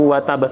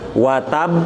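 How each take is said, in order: First: The final b bounces without being held. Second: The final b is held before it bounces. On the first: The speaker calls it wrong. "Bukan dibaca" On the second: The speaker calls it right. "syaddah dulu ya"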